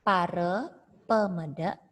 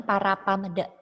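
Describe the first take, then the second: First: Pare pemede with a read as e; the right way, Pare pemede with e. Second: Para pamede read with plain a as written; the wrong way, para pamede with a. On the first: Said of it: "Jangan para pamede". (cara baca yang benar, Pare pemede) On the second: (cara baca yang salah, para pamede) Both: Shown as a demonstration.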